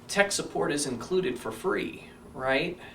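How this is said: The voice sounds weak and unsure. The offer can be challenged. The speaker calls it wrong. "And that's pretty weak"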